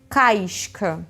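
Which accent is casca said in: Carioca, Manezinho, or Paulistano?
Carioca. It is said in a Rio accent, glide before sh.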